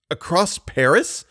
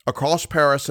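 First: Slow, high, stunned question; drawn out and rising in disbelief; lightly hoarse, incredulous echo. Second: Said in the usual way. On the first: A narrator's reading. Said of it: "in a hoarse voice". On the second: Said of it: "asked poor Raoul in a hoarse voice".

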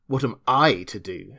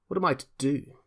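First: "I" leaned on, throwing the question back; stress on I. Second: Higher-pitched, mildly sullen question; understated sulk, pitch raised. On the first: Invisible man echoing his captive's question, stressing "I". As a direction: retort with the weight on "I". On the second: Adya asking his captor for orders, sullenly. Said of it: "he said sullenly". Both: A narrator's reading.

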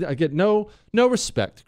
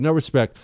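First: High, whiny complaint, lightly done; a hint of the no-respect comic; Rodney Dangerfield. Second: Said in the usual way. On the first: Host complaining to Chris in a light mock whine. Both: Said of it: "I sound like Rodney Dangerfield".

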